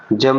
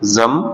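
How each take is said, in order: First: जम with an English j sound, as in jam; जम said with a hard j, the wrong way. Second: जम with a z sound, zam; correct Urdu sound. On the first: Teacher shows the wrong जम with a j sound. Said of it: "जम नहीं पढ़ा जाएगा". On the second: Teacher gives the correct जम with a z sound. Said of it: "ये पढ़ जाएगा जम". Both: Shown as a demonstration.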